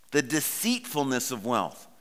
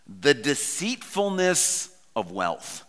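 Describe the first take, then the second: First: Said in the usual way. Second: The deceitfulness of wealth drawn out slowly, each word weighted; slow emphatic phrase. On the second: Shown as a demonstration. Preacher savouring a favourite phrase for the congregation, slow and weighted. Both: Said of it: "and I love the phrase".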